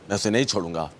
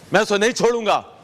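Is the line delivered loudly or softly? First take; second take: softly; loudly. First: It is delivered softly, in a restrained style. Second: It is delivered loudly, in a big theatrical style.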